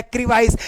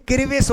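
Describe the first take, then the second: First: "क्रिवाइस" ending in vice; wrong pronunciation. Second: "क्रिविस" ending in short vis; correct pronunciation. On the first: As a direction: misread it as "क्रिवाइस", eye vowel. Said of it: "लेकिन क्रिविस होगा". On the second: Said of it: "क्रिविस होगा". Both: Shown as a demonstration.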